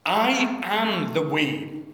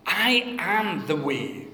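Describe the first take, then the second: First: I am the way with I stressed; emphatic I. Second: I am the way, I emphatic. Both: Shown as a demonstration. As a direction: stress on I, slow and weighty. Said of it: "it's really emphatic. It's I".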